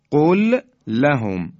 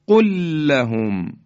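First: قل لهم as two words, pausing after the first l; slow and loud, stop on قل, then لهم; unmerged l. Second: قل لهم run together through one long held l; merged l. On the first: Teacher setting out the letters before merging, separated l. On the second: Teacher showing how we say it, merged held l. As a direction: recite قل لهم loudly with no break, doubling the l. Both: Shown as a demonstration.

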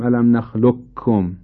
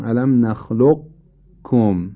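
First: نخلقکم as nakhluk-kum, qaf turned into k; kaf in place of qaf. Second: Slow نخلقکم as nakhluq-kum, qaf held unreleased; qaf pronounced without qalqalah. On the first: Teacher showing what he does not say, نخلقکم with qaf lost into kaf. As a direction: say نخلقکم with a plain doubled kaf. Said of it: "کاف نمیگم". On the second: Teacher correcting the kaf version, نخلقکم with a clear held qaf, no echo. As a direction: sound the qaf in نخلقکم, no bounce before kaf. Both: Shown as a demonstration.

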